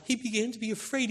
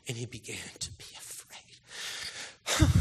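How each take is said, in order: First: Higher and quicker; higher, quicker retelling of Jesus' fear; lifted, urgent. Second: Slow breathy whisper; hushed whisper of Jesus' fear. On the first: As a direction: lift it and press on. Same words repeated with a lift. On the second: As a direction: breathe it out slowly, barely voiced. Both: Real, not acted.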